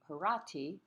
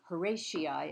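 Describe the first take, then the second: First: The name is pronounced the Latin way. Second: The name is pronounced the common English way. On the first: "the Latin pronunciation would be the Horati, which is also acceptable" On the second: "as it's commonly called"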